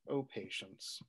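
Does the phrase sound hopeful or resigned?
resigned. It is said with resignation, giving up. The speaker feels helpless and gives up. "There's a giving up there"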